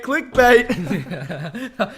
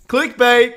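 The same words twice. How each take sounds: First: Laughing repeat with a rising end. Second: Loud, hyped call of the word; loud clickbait announcement. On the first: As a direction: laugh through the word clickbait. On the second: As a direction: shout it like a video title. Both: Pretend.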